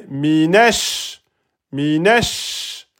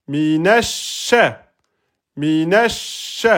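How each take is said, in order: No difference in how they are said.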